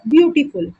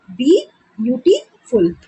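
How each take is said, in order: First: Said in the usual way. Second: beautiful slowly split into three beats, B-UT-full; syllable by syllable. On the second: Shown as a demonstration. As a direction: break beautiful apart with pauses. (Beautiful को तीन हिस्सों में धीरे-धीरे) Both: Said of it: "तो ये three syllable भी हो गया".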